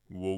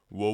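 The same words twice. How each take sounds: First: The scream is pitched mid-low. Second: The scream is pitched a bit higher. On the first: "instead of" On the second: "you can try a bit higher"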